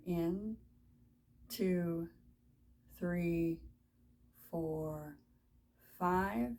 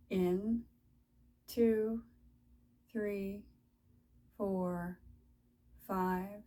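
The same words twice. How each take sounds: The two takes are said the same way.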